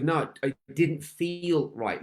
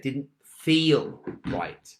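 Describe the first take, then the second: First: Said in the usual way. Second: Didn't feel right, drawn out very slowly with weight on feel; each word of Didn't feel right spaced out slowly for emphasis; slow stress on feel. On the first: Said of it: "She goes". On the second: Shown as a demonstration. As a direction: lean hard on feel and stretch every word of Didn't feel right. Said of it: "Listen to what I just said".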